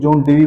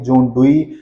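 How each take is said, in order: First: The surname is said like 'Deevee'. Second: The surname is said like 'Dooee'. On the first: The speaker calls it wrong. "John डीवी बोल देते हैं कोई" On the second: The speaker calls it right. "सही pronunciation क्या होगी?"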